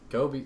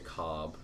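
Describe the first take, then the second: First: The name is pronounced the usual way. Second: The name is pronounced in an altered way.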